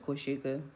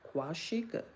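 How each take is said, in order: First: The name is said simply, without extra mouth movement. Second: The name is said with big, drawn-out mouth movement. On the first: This is how the bearer says her own name. "I just say it's Quashika because it's just Quashika" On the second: This is how the mother says the name. "she says Kwashika ... I didn't need all that jaw"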